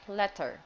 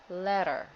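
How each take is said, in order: First: The middle T has a strong puff of air. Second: The middle T is quick and soft. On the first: The speaker calls it wrong. "Very strong aspiration on T" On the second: The speaker calls it right. "you have to say it fast and not that hard"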